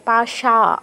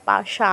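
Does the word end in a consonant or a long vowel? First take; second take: long vowel; long vowel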